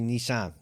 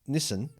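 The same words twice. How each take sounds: First: It is said with an American pronunciation. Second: It is said with an Australian pronunciation. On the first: The speaker calls it right. "it's actually Nissan ... correct way to say it" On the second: The speaker calls it wrong. "Aussies say it the wrong way. We say Nissan"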